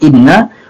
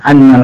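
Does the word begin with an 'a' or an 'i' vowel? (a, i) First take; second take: i; a. First: The first vowel is an 'i' sound. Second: The first vowel is an 'a' sound. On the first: "dan juga boleh dikasrahkan inna wa huwa afsad" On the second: "yajuzu fathuha, boleh difathakan"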